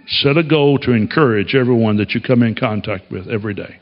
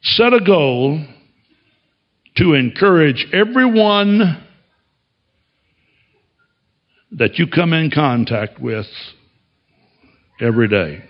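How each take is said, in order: First: Said in the usual way. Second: Slow, each phrase set apart with pauses; measured preaching emphasis; slow emphatic delivery. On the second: Shown as a demonstration. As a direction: lay it out slowly, phrase by phrase.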